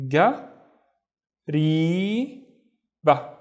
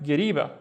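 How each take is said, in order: First: "ga, ri, ba" with long pauses between syllables; teacher's isolated syllables, "ga ... ri ... ba"; split into syllables. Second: Said in the usual way. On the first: Shown as a demonstration. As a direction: sound out "ga, ri, ba" separately, ri held long. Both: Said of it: "let's split the other word into syllables".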